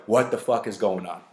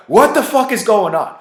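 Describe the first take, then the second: First: Said in the usual way. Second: Much louder and higher mock yell; exasperated shout. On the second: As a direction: blow up in disbelief. Girl pukes a second time.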